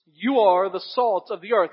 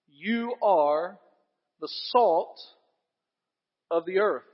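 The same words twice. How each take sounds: First: You punched louder, rest of the line even; emphatic You, said loud and firm; stress on You. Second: Said in the usual way. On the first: Shown as a demonstration. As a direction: lean hard on You to point at the listeners. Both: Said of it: "the you there in the original language is in the emphatic place".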